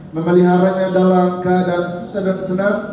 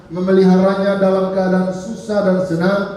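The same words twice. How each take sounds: The two takes are said the same way.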